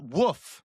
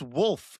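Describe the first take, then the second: First: The word is said without the L sound. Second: The word is said with a clear L sound. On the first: The speaker calls it wrong. "It's not woof" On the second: The speaker calls it right. "The L F is a very clear pronunciation"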